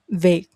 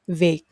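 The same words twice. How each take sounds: The two takes are said the same way.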